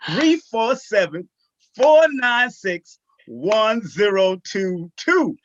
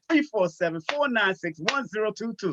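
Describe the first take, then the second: First: The number is said slowly. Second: The number is said at normal speed.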